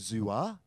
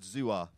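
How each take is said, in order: First: The pitch rises through the word. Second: The pitch stays level through the word. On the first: It means pineapple. "If you go up when you say it" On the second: It means cucumber. "Say it like that"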